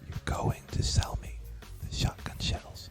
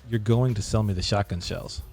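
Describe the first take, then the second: First: It is spoken in a whisper. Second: It is spoken in a normal, full voice. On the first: "and then whisper it" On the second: "say it regularly"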